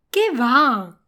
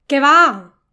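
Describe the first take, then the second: First: "qué va" drawn as a dismissive denial; emphatic no. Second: "Qué va" called out much louder, as a heads-up; loud warning shout of "Qué va". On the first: Teacher gives learners the pair to practise, emphatic no. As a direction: wave it off with "qué va". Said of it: "es un no rotundo". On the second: Teacher gives learners the pair to practise, warning call. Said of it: "Recuerda y practica esto". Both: Shown as a demonstration.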